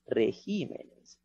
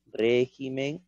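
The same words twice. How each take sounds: First: "regímenes" despacio, con fuerza en GÍ; acento en regímenes. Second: "Régimen" despacio, con fuerza en RÉ; acento en Régimen. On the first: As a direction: marca lentamente la GÍ de "regímenes". (sílaba tónica GÍ en "regímenes") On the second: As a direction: marca lentamente la RÉ de "Régimen". (sílaba tónica RÉ en "Régimen") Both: Shown as a demonstration.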